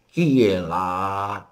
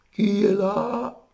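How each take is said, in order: First: Voix traînante, plutôt normale; mémé lente, hauteur habituelle; vraie grand-mère. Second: Qui est là très aigu, traîné; le loup déguisé imite la mémé; loup en fausset. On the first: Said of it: "t'entends la vioque". (grand-mère lente, sans fausset) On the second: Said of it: "qui imite maintenant la vioque". (fausset très aigu et lent) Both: Acted.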